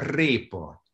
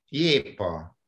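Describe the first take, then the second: First: The first sound is an r. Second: The first sound is a y-like glide. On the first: The speaker calls it right. "nem jépa, répa" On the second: The speaker calls it wrong. "rosszul mondjuk"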